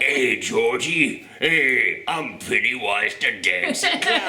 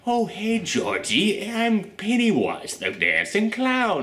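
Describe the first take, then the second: First: Put-on slow old Brooklyn hobo clown; Pennywise hobo voice. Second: High, slow, sweet clown voice; sweet innocent Pennywise. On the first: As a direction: drawl it like a Brooklyn bum clown. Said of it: "an old Brooklyn hobo voice". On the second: Retold or imitated. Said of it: "going back and forth between the".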